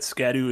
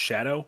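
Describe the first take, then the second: First: The word begins with an 'sk' sound. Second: The word begins with an 'sh' sound. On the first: The speaker calls it wrong. "Scadu is not how you pronounce it" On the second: The speaker calls it right. "It's actually just Shadow"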